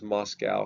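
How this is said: The city name is said the American way. "Most Americans refer to it as Moscow"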